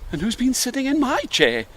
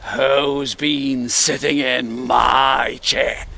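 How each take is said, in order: First: It is said in a kind, polite voice. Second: It is said in a deep, gruff voice.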